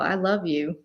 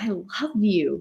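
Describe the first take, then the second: First: It sounds mocking and insincere. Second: It sounds warm and sincere. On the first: The speaker does not really love the person. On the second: The speaker truly loves the person.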